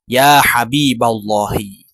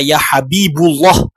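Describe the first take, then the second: First: The vowel after Habib is a. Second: The vowel after Habib is u. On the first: The speaker calls it right. "Tetapi dia dibaca" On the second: The speaker calls it wrong. "dia tidak dibaca"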